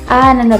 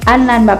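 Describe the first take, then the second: Both takes have the same delivery.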